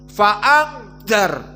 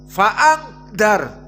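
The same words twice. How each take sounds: No difference in how they are said.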